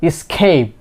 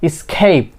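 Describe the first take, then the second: Both takes have the same delivery.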